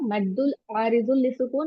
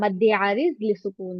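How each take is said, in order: First: The -ul endings are fully pronounced. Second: The -ul endings are dropped. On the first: "ये अरेबिक में लिखा हुआ है" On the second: "but Urdu में बोलो तो"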